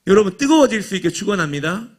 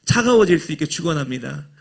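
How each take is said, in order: First: Preacher's blessing on 뜨거워질, a touch louder with a rising call; right blessing. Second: Preacher's blessing with 차가워질 swapped in, rising at the end; wrong blessing. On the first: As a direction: bless the congregation with conviction to draw an amen. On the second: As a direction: deliver the absurd blessing in full preaching cadence. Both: Shown as a demonstration. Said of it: "이렇게 하면 아멘 안 하잖아요".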